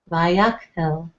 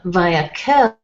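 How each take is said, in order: First: There is a short stop after 'vayak'. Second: The syllables run together without a stop. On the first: The speaker calls it right. "you stop via kel" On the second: The speaker calls it wrong. "it's not via kel"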